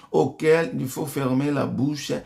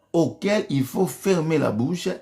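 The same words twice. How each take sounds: Both takes have the same delivery.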